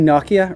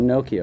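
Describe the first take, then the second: First: It is said with a European pronunciation. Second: It is said with an American pronunciation. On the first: "in Europe you guys say Nokia" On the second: "we call it Nokia over here"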